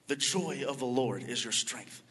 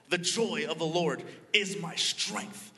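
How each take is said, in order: First: Said in the usual way. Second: Showing the mother how to shout it out. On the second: Retold or imitated. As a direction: belt "The joy of the Lord is my strength" like a cheer. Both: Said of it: "No, shout it out".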